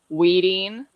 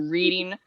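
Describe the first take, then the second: First: The first sound is a W sound. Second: The first sound is a clear R sound. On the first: The speaker calls it wrong. "Or it would be like R, Wascally Wabbit" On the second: The speaker calls it right. "I have to push my mouth and my tongue really forward in a weird way so I can say"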